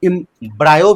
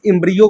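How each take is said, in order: First: The middle vowel sounds like 'eye'. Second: The middle vowel sounds like 'ee'. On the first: "कोई इम्ब्रायो भी बोल देता है" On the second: "अब pronunciation देख लेना भाई।"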